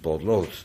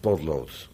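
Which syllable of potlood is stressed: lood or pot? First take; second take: lood; pot. First: The stress is on the second syllable. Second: The stress is on the first syllable. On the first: The word refers to the lead used for writing. "maar het is een potlood" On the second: This is the usual modern pronunciation. "hebben we de klemtoon verlegd"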